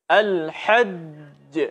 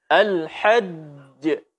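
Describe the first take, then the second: The two takes are said the same way.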